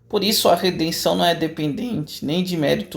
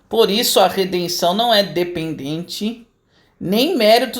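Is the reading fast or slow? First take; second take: fast; slow. First: It is read at a normal, running pace. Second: It is read slowly with clear pauses.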